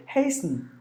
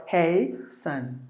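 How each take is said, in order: First: "Hasten" squeezed into HAYS-n; one syllable. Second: "hey son" slowly split, HAY... SUN; slow "hey son", full vowel in the second syllable; two syllables. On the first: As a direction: say "Hasten" softly, S straight into N. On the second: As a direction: say "hasten" as two separate beats. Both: Shown as a demonstration. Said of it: "one syllable or two syllable".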